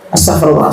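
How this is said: It is said mechanically, by rote.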